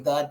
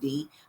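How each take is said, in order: First: It is said with a northern US accent. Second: It is said with a southern US accent. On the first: "up north we say the" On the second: "down here they're saying the"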